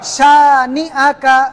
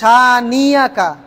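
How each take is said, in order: First: A glottal break separates 'ni' from 'aka'. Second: A 'y' glide joins 'ni' to 'aka'. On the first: The speaker calls it right. "হামজা জবর আ, শানি আ" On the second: The speaker calls it wrong. "অনেকে পড়ে শানিয়াকা"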